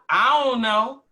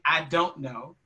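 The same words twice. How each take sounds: First: The d is dropped, leaving an uh sound. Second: The d at the start of don't is pronounced. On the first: "yielding a uh sound" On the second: "instead of saying"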